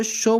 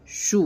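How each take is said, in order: First: شو said with a pure o, like show; majhool vowel. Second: شو said with a long pure oo, like shoo; maroof vowel. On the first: Teacher contrasting شو said as sho. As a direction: round شو to an o sound, not oo. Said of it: "ہم اس کو شو بولیں گے تو یہ مجہول ہو جائے گا". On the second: Teacher spelling out شو as shoo. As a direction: stretch the waw in شو to a full oo. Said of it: "مدہ کی آواز". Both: Shown as a demonstration.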